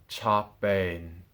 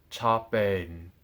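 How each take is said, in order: The two takes are said the same way.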